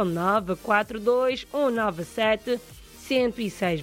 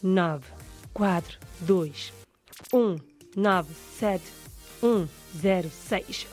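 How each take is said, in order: First: The number is said at a faster pace. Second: The number is said at a slower pace.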